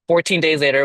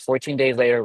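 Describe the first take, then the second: First: Fourteen days later, said higher and louder, fourteen punched; stress on fourteen. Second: Said in the usual way. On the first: Shown as a demonstration. Telling the closing came fast, fourteen stressed.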